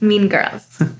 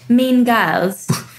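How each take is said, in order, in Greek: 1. Λέγεται με αμερικανική προφορά. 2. Λέγεται με βρετανική προφορά. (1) "Πρέπει να είναι αμερικάνικη προφορά" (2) "ενώ με αγγλική προφορά"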